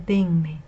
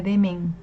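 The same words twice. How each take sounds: First: "denme" slowly, with the n before me; correct form. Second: "demen" in two syllables, DE-men; wrong form, misplaced n. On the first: Teacher correcting the mistake, slow "denme" ending in -me. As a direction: draw out "denme" as DEN-me. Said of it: "se dice denme". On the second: Teacher showing what not to say, "demen" ending in -men. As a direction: close "demen" on a final n. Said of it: "Tampoco se dice demen". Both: Shown as a demonstration.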